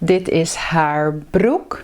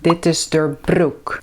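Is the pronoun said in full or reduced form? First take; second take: full; reduced. First: The pronoun is said in its full form. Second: The pronoun is said in a short reduced form.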